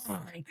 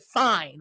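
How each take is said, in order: First: A sulky, much softer "Fine." that drops away; bratty fine. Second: Said in the usual way. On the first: Retold or imitated. Telling the reader she gave in with a bratty "Fine.". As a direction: give in like a pouting brat, barely voiced. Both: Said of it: "I literally was like".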